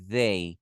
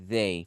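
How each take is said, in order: First: The word begins with a voiced th sound. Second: The word begins with a voiced th sound.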